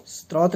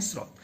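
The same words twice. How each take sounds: First: स्रोत mispronounced as "strot"; स्रोत said with "str" at the start; wrong extra T. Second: स्रोत with S running straight into R; स्रोत with a clean "sr" start; correct "srot". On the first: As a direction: put a T after the S in स्रोत. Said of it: "स्रोत नहीं बोलते हैं". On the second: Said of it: "इसलिए इसको बोलते हैं स्रोत". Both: Shown as a demonstration.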